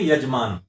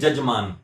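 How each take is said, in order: First: The word begins with a y sound. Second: The word begins with a j sound. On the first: This is how it is written. "लिखेंगे यजमान" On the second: This is how it is spoken. "बोलेंगे जजमान"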